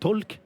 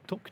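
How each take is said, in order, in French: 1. Le L se prononce. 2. Le L ne se prononce pas. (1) "notre ami dire tal talk" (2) "en anglais ça devrait être talk normalement, on prononce pas le L"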